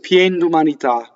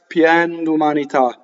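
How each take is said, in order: First: The phrase is run together quickly. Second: The phrase is said with careful articulation. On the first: "If you're going fast" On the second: "If you want to be correct"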